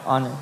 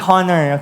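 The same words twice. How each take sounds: First: The word begins with a silent H. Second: The word begins with a sounded H. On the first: The speaker calls it right. "Silent H yan" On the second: The speaker calls it wrong. "Hindi honor, okay? Kapampangan lang yun"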